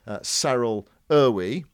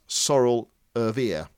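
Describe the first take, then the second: First: The name is read as English spelling suggests. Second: The name is said with Afrikaans vowels. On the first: The speaker calls it wrong. "who you might be tempted to call" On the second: The speaker calls it right. "his name is pronounced"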